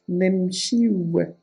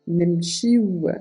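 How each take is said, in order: No difference in how they are said.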